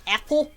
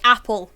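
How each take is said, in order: First: "apple" said with an open e, like "epple"; Swedish äpple. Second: Said in the usual way. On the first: Shown as a demonstration. Showing a friend the Swedish dotted a, "apple" said as "epple". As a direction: start "apple" on an e sound. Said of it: "makes it sound more like apple". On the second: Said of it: "which is the A with the two dots".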